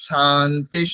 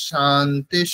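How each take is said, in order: Both takes have the same delivery.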